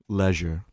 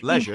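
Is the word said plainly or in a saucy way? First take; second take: saucy; plainly. First: It is said in a saucy, seductive way. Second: It is said in a plain, normal way.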